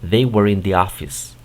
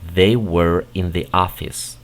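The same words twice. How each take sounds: First: It is said at a faster pace. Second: It is said at a slower pace.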